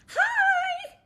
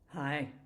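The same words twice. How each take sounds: First: It is a warm, high, delighted greeting. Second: It is a cold, low, flat greeting.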